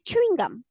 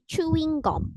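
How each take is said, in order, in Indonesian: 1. Frasa ini diucapkan dengan pelafalan Inggris. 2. Frasa ini diucapkan dengan aksen Korea. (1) "Kalau dalam bahasa Inggris kan kita nyebutnya chewing gum" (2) "kalau dalam bahasa Korea mereka nyebutnya chewing gum"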